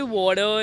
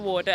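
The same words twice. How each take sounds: First: "water" with an American r at the end. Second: Said in the usual way. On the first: Shown as a demonstration. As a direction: say "water" the American way, r-coloured ending. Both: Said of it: "they say water instead of water".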